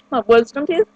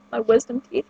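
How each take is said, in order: First: Talking around a candy; words slurred by candy in mouth; sucking a hard candy. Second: Repeating it around the candy; trying again with candy in mouth; sucking a hard candy. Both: Real, not acted. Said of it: "I can't talk with candy in my mouth".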